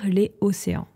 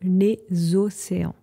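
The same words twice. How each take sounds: First: Les and océans are said without linking. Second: The s of les links into océans. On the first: The speaker calls it wrong. "Vous ne pouvez pas dire les océans" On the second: The speaker calls it right. "vous devez dire les océans"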